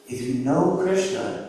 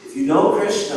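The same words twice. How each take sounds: First: "If you know Krishna" said slow and soft with stress on "know". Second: "If you know Krishna" louder and higher, "know" hit hard with a falling tune; emphatic. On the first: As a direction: lean gently into "know", unhurried. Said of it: "you know everything". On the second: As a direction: proclaim it, punching "know". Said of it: "who's the source of everything". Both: Shown as a demonstration.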